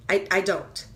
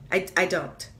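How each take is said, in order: Both takes have the same delivery.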